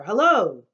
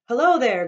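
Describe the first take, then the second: First: Loud, higher hail; calling out. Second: Loud, higher hail across the street; calling out. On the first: Grandfather calling after the cart man, loud hail. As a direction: shout again to stop him. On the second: Grandfather hailing the man with the cart, loud call. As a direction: shout to catch the man's attention. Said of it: "cried Grandfather". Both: Acted.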